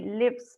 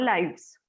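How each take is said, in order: First: The vowel is short, as in 'live'. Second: The vowel is long, as in 'life'. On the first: The speaker calls it right. "esto se pronuncia lives" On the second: The speaker calls it wrong. "no lives"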